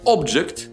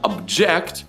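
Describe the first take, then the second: First: The stress is on the first syllable. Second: The stress is on the second syllable. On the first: It is a noun meaning a thing. "Ударение на первом слоге – это существительное" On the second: It is a verb meaning to protest. "ударение на втором – это глагол"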